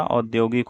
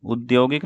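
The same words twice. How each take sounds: First: औद्योगिक begun with "au"; correct au vowel. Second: औद्योगिक begun with short "u"; wrong u vowel. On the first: Teacher correcting the word, औद्योगिक with au at the start. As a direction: open औद्योगिक on au. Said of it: "औद्योगिक होता है". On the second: Teacher showing the mistake, औद्योगिक said as udyogik. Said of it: "औद्योगिक नहीं होता". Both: Shown as a demonstration.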